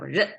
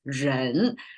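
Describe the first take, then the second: First: The syllable has a light neutral tone. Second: The syllable has a full rising tone. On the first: "instead of" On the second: "give it a full pronounced sound"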